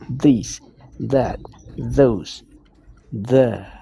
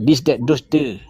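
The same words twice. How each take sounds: First: The words begin with a soft th sound. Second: The words begin with a hard d sound. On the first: The speaker calls it right. "You should improvise, improvise on th sound" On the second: The speaker calls it wrong.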